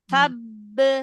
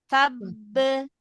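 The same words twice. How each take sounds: No difference in how they are said.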